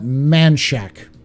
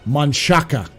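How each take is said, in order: First: The name is said with two syllables. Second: The name is said with three syllables. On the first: This is how locals say the name. "but they call it Manchac" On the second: This is how the name is spelled. "It's spelled Manchaca"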